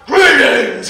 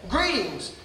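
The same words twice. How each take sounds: First: It is said loudly, in a booming voice. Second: It is said at a normal volume.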